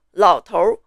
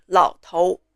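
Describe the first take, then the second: First: 老头儿 with R merged into the last syllable; Putonghua R sound. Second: 老头 with a pure vowel ending, no R; Taiwanese, no R. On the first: Teacher demonstrating erhua to learners, R-coloured ending. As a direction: curl the tongue into an R ending on 老头儿. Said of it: "The 头 R is 头". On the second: Teacher showing how Taiwanese say old man, without R. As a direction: drop the R from the end of 老头. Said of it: "Taiwanese don't do this 儿化音". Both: Shown as a demonstration.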